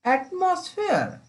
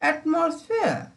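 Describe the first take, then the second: No difference in how they are said.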